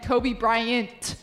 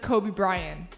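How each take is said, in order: First: The name ends with a clear T sound. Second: The name ends without a T sound. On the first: The speaker calls it right. "there's a T at the end" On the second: The speaker calls it wrong. "does not pronounce the T"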